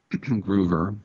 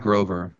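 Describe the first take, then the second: First: Groover said with a long oo, GROO-ver; correct pronunciation. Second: Grover said with a long o like the Muppet, not the name; wrong pronunciation. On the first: Correcting the name on air, Groover with a long oo. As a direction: stretch the oo in Groover. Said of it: "Gino Groover". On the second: Showing the wrong way to say the name, Grover with a long o. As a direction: say Grover as GROH-ver. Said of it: "Not Grover". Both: Shown as a demonstration.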